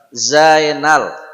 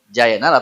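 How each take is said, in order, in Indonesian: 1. Kata ini diawali dengan bunyi z berdengung. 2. Kata ini diawali dengan bunyi j. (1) "dia seperti huruf Z dalam bahasa Indonesia" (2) "ini semua diganti dengan huruf J"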